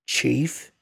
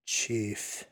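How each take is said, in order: First: CHIEF with a rising questioning tune. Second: Soft, falling attempt at Chief; tentative repeat. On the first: Dingo points to the kid and asks, questioning. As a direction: say Chief as a question, pitch lifting at the end. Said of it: "points to the kid and asks him". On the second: The Indian nods and tries to repeat, tentatively. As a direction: try the word Chief out quietly, pitch falling. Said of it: "tries to repeat". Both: A narrator's reading.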